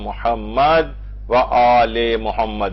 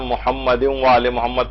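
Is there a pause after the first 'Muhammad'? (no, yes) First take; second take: yes; no. First: There is a pause after the first 'Muhammad'. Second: The phrase flows on without a pause. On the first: "इसमें मोहम्मद के ऊपर वक्फ दे दिया जाता है" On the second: "वरना अमूमन हम मोहम्मद व आले मोहम्मद तशहुद में पढ़ते हैं"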